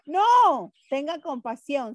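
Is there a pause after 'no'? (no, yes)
yes. There is a pause after an exclaimed 'no'. Do have compassion. "¿Se da cuenta cómo cambiamos?"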